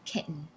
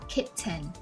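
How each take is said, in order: First: The middle T is a glottal stop. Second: The middle T is a clear T. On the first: "Americans would say kitten" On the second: "Instead of saying kitten"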